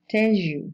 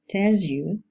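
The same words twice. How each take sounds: First: The word 'tells' ends in a zh sound. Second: The word 'tells' ends in a plain z sound.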